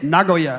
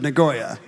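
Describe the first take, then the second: First: It is pronounced the native, Japanese way. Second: It is pronounced the anglicized, English way. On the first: "I decided to get above his level, and now I say" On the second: "instead of"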